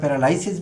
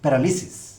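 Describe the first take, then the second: First: The third syllable is said as 'lai'. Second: The third syllable is said as 'li'. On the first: This is the common everyday pronunciation. The speaker calls it wrong. "প্রচলিত উচ্চারণে আমরা প্যারালাইসিস বলি" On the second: This is the dictionary standard pronunciation. The speaker calls it right. "Dictionary সিদ্ধ standard pronunciation হলো প্যারালিসিস"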